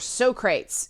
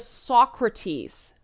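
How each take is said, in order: First: The name is pronounced the comic film way. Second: The name is pronounced the usual English way.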